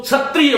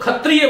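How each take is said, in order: First: "क्षत्रिय" begun with chh, as chhatriya; variant pronunciation. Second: "खत्रिय" with aspirated kh for ksh; variant pronunciation. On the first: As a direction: turn ksh of "क्षत्रिय" into aspirated chh. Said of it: "कुछ लोग क्षत्रिय बोलते हैं". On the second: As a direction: start "खत्रिय" on kha, not ksha. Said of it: "कुछ लोग खत्रिय बोलते हैं". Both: Shown as a demonstration.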